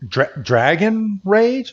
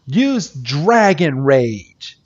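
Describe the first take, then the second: First: "Dra-, Dragon Rage?" stammered, higher and rising; stunned disbelief. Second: Said in the usual way. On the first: Retold or imitated. Onlookers gasping at Iris's choice of attack, disbelieving. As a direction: stumble on "Dragon Rage" as if you can't believe it. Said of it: "everyone around is like". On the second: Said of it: "And she's like".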